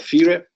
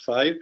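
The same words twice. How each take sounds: First: The name is pronounced with Italian sounds. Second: The name is pronounced like the English word. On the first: The speaker calls it right. "We pronounce it in the Italian way" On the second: The speaker calls it wrong. "not FIRE"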